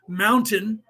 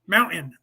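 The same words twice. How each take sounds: First: The t in the middle is clearly pronounced. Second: The t in the middle is dropped. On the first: "That's the correct way of saying that word in English" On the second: "They don't say T. There's no T anymore in there"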